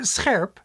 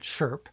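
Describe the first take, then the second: First: It starts with an 's' plus a throaty sound. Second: It starts with a plain 'sh' sound.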